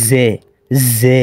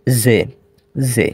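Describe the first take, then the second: First: জে said heavy and thick, the Urdu sound; a full, heavy জে; thick Urdu zhe. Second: জে said thin and light like Arabic zay. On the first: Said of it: "মোটা করে". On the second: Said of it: "তার উচ্চারণ হলো এভাবে". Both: Shown as a demonstration.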